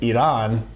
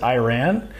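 First: The word sounds like 'we ran'. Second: The word does not sound like 'we ran'. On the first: The speaker calls it right. "if you pronounce it right, like Iran, it sounds like we ran" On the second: The speaker calls it wrong. "a lot of people pronounce it Iran"

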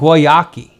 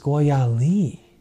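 First: The consonant before the last vowel is a K. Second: The consonant before the last vowel is an L. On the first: The speaker calls it wrong. "Or even Guayaki" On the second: The speaker calls it right. "But it's Guayali"

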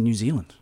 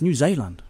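First: Zealand is said with the usual English vowels. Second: Zealand is said with a Dutch-style pronunciation. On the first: The speaker calls it wrong. "We're mispronouncing New Zealand" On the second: The speaker calls it right. "It's a Dutch word"

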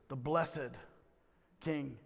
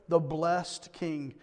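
First: It is said in a solemn, churchy way. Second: It is said in a plain, everyday way.

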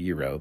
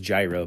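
First: The word begins with a y sound. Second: The word begins with a j sound. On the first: This is the authentic way to say it. The speaker calls it right. "but it's actually euro" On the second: This is how most people say it. The speaker calls it wrong. "everybody says gyro"

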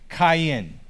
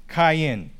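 First: The name is said with a Hebrew pronunciation. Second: The same.

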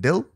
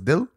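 First: It sounds like the English word dill. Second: It sounds like the Urdu word for heart. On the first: The speaker calls it wrong. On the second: The speaker calls it right.

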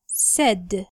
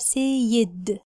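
First: The vowel sounds like the one in 'set'. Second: The vowel sounds like the one in 'say'. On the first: The speaker calls it right. "لا احنا نقول said" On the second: The speaker calls it wrong. "ما ينفعش أقولها سيد"

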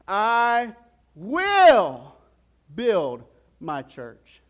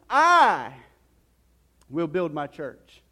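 First: The stress falls on the word "will". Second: The stress falls on the word "I". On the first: It is certain whatever the circumstances. "Then he goes on to say it this way" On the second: He himself does it, not other people. "let's put some emphasis on that phrase here"

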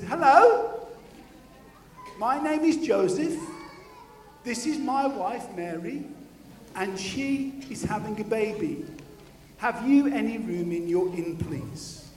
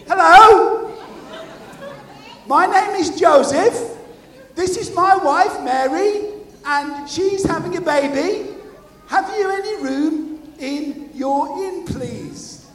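First: It is said at normal volume. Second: It is said a bit louder.

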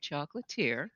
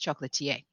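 First: The word is pronounced with an American accent. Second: The word is pronounced with a French accent. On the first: It avoids coming across as pretentious. "So we just say chocolatier" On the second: It can come across as pretentious to Americans. "when you're speaking French, when you're interacting with French folks, it's chocolatier"

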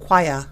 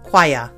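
First: It is said in a British accent. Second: The same.

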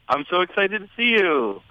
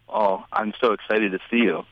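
First: It sounds warm and genuinely excited. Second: It sounds flat and creepy.

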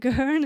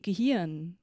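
First: The middle vowel sounds anglicized. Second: The middle vowel sounds German. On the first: The speaker calls it wrong. "Gehirn is kind of the worst because it sounds just so funny" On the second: The speaker calls it right. "The right way to pronounce this would be Gehirn"

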